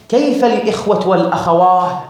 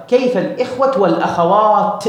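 First: والأخواه ending in long aah with no t; Tayy dialect H ending. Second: والأخوات higher, closed with a clear t; stop on T. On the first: Teacher quoting the Tayy dialect, والأخواه ending in h. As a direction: close والأخواه on a breath of h. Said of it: "ينسب هذا البعض للغة طي". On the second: Teacher modelling the preferred form, والأخوات with final t. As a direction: land firmly on the t of والأخوات. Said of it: "لا بد أن تقف في التاء". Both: Shown as a demonstration.

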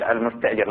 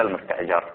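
First: المستأجر said with an "i" after the jim; المستأجر ending in -jir, for the one who hires; kasra on the jim. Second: المستأجر said with an "a" after the jim; المستأجر ending in -jar, for the one hired; fatha on the jim. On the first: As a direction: say المستأجر as al-musta'jir. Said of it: "بكسر الجيم". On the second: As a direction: say المستأجر as al-musta'jar. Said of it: "لا بفتحها". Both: Shown as a demonstration.

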